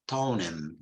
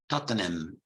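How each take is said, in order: First: The middle t sound is dropped. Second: The middle t sound is pronounced. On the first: This is how people in London say it. "in London, they also say Tonham" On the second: This is the proper way to say it. "the appropriate pronunciation should be Tottenham"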